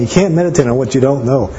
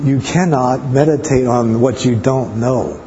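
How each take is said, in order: First: Said in the usual way. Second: "cannot" stressed, slowed down; slow emphatic. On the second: Shown as a demonstration. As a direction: lean hard on "cannot", each word weighed.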